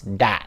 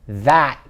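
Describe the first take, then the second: First: It starts with a hard d sound. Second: It starts with a soft th sound. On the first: The speaker calls it wrong. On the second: The speaker calls it right.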